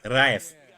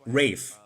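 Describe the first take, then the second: First: The name does not sound like 'rave'. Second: The name sounds like the word 'rave'. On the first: The speaker calls it right. "I pronounce it right" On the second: The speaker calls it wrong. "He pronounces it Rave"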